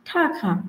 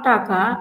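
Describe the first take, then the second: First: The first t has a strong puff of breath. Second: The first t has no puff of breath. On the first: The speaker calls it right. "ঠাকা not টাকা" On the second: The speaker calls it wrong. "নট টাকা"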